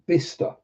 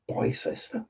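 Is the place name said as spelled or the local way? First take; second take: local way; as spelled. First: The name is said the local way. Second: The name is said as it looks written. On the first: Locals say it this way. The speaker calls it right. "Oh, you mean Bicester?" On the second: A visitor unfamiliar with the place said it. The speaker calls it wrong. "I'm like, Bicester? What? Never heard of that"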